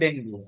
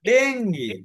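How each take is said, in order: First: The word ends with an 'oo' vowel. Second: The word ends with an 'ee' vowel. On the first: The speaker calls it wrong. "এটারে অনেকেই বলে ডেঙ্গু" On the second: The speaker calls it right. "আসলে এটার উচ্চারণ হচ্ছে"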